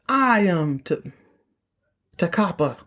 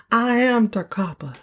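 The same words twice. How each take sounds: First: Slow, breaking off at "T-" before "Takapa"; halting recall. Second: Higher, unbroken "I am Takapa"; declaring. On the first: Real, not acted. Host quoting Jock while recalling the name, halting before "Takapa". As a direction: pause mid-name to work out "Takapa". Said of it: "I have to think of it". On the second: Retold or imitated. Host redoing Jock's line after stumbling, declaring it. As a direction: announce "I am Takapa" in one go.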